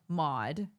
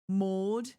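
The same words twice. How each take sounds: First: The name is said in an American accent. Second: The name is said in an English accent. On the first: "which is how I would pronounce that name" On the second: "the way that English people pronounce it"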